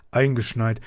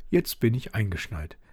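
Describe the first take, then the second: First: Louder, happy exclamation from dad; father cheering at being snowed in; cheerful call. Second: Said in the usual way. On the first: Acted. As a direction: call it out gladly. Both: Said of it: "rief er fröhlich".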